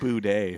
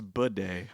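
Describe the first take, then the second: First: The first syllable sounds like 'boo'. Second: The first syllable sounds like 'bee'. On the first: The speaker calls it wrong. "you keep saying boudet" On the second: The speaker calls it right. "I think it's bidet, like bi"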